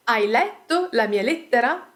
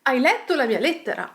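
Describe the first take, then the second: First: "Hai letto la mia lettera" rising at "lettera"; question intonation. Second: Quick statement "Hai letto la mia lettera", falling at "lettera"; statement intonation. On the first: Teacher gives example question, rising intonation on "lettera". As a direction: ask it, lifting the end of "lettera". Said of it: "we can quickly turn these questions". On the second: Teacher turns question into statement, quick statement intonation falling on "lettera". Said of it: "simply changing the intonation". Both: Shown as a demonstration.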